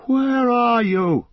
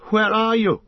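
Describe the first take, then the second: First: Loud, high and slow lost call; slow miserable loud cry; crying out miserably. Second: Loud high cry with anger and fear; frightened angry call; angry and afraid. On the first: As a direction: call out alone and despairing. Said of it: "he cried out miserably". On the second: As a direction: shout into the dark, scared and furious. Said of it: "both angry and afraid". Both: Acted.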